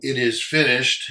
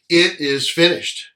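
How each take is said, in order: First: It is said in a resigned tone. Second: It is said in a triumphant tone.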